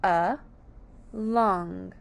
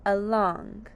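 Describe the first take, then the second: First: "A, long" as two separate syllables, A said uh; split into syllables. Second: Said in the usual way. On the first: Shown as a demonstration. Teacher showing along has two syllables, split into syllables. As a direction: pause between A and long. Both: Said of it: "two syllables".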